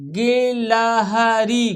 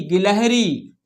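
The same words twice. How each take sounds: First: गिलहरी découpé en syllabes longues et égales; détache et allonge chaque syllabe de गिलहरी; lecture syllabée. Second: Said in the usual way. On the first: Shown as a demonstration. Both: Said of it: "हमारे साथ पढ़ना है आपको".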